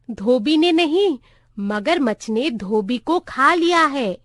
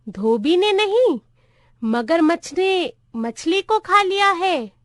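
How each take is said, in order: First: Said in the usual way. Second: Put-on high-pitched voice of a confused old clerk; muddled old clerk. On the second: A narrator's reading. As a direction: echo it back in a raised, puzzled pitch. Old clerk repeats it wrongly. (उलझे बूढ़े clerk की ऊँची आवाज़)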